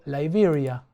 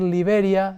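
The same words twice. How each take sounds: First: The name is pronounced as in another language. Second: The name is pronounced the usual Spanish way. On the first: "pronuncie en, en otro idioma" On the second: "en vez de decir Liberia"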